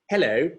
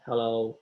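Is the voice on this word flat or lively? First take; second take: lively; flat. First: The pitch moves widely up and down. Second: The pitch stays flat and level. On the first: The speaker calls it right. "I try to use tonal variations. So uh, this is obviously exaggerated" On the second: The speaker calls it wrong. "people who are quite monotone, you know, like"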